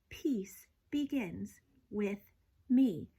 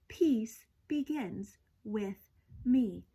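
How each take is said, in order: No difference in how they are said.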